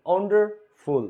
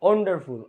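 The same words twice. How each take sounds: First: ওয়ান্ডারফুল split into wonder and ful; syllable by syllable. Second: Said in the usual way. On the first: Shown as a demonstration. Teacher showing students the parts, ওয়ান্ডারফুল said in separated pieces. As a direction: break ওয়ান্ডারফুল with a gap before ful. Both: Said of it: "দুই syllable".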